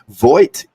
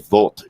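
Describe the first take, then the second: First: The name is said with an English-style pronunciation. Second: The name is said with a German pronunciation. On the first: The speaker calls it wrong. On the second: The speaker calls it right.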